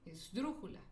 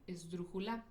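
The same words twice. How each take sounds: First: The stress is on the third-from-last syllable. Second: The stress is on the final syllable. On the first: "Si se lo pongo en la antepenúltima sílaba" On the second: "Si yo le pongo el acento en la última sílaba"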